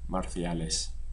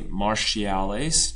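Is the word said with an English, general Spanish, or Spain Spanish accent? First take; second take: Spain Spanish; English. First: The word is said with a Spain Spanish pronunciation. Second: The word is said with an English-style pronunciation. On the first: The speaker calls it right. "Or in Spain" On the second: The speaker calls it wrong. "be careful not to say marciales. Don't try to grab that English pronunciation"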